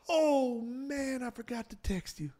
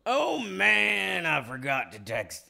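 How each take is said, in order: First: High, then fading soft voice; lightly voiced soft-spoken older man; Garrett Morris impression. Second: Higher louder start, then plain; a hint of a rough older man; Garrett Morris impression. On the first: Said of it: "he has a, like, a whispery voice". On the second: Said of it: "let me do mine".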